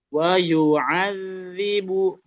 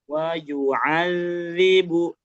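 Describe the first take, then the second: The two takes are said the same way.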